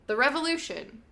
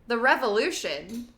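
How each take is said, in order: First: It is said like an exclamation. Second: It is said like a question. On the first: The speaker calls it right. "it's actually an exclamation" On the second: The speaker calls it wrong. "I keep making it sound like a question"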